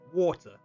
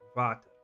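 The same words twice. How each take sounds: First: It is said in a British accent. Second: It is said in an Afrikaans accent. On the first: "British people like how would they say it like water" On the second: "or in Afrikaans water"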